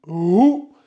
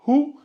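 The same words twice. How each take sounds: First: "hou" pressed hard and louder from the throat; heavy h. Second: "Hou" with a light breathy h, pitched high. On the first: Teacher contrasts light and heavy h for students, pressed. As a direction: push "hou" out strongly from the throat. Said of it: "Vous appuyez un peu fort". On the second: Teacher contrasts light and heavy h for students, light. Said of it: "Lui, c'est le léger". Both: Shown as a demonstration.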